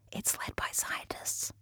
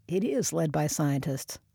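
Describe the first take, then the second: First: Slow breathy whisper. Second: Said in the usual way. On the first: Shown as a demonstration. Corrects quote, then repeats it.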